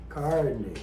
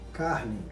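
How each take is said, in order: First: It has an inland São Paulo retroflex R. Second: It has a southern Brazilian, non-retroflex R. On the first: "como é falada, por exemplo, no interior de São Paulo" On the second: "como é falado aqui no sul"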